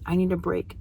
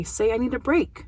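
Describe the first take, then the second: First: Put-on lighter, softer echo of the child; a hint of the child copying the phrase; child's reply. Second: Put-on rising therapist prompt to the child; a light, coaxing prompt, barely different from her own voice. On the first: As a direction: answer like the child, a little quieter. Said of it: "And he says". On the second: Shown as a demonstration. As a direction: model the words lightly for the child to copy. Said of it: "or by having him say".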